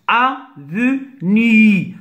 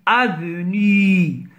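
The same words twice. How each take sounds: First: Avenue very slowly in three separate beats, a, ve, nue; syllable by syllable. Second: Said in the usual way. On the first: Shown as a demonstration. Teacher cutting the word for pupils, Avenue in three slow syllables. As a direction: split Avenue with a pause after each syllable. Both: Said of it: "se compose de trois syllabes".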